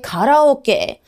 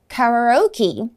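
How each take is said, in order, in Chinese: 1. 发音是 ka-la-O-K，中式发音。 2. 发音是 carry-oh-kee，英式发音。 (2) "卡拉OK 它的英文发音截然不同，是这么说的哦"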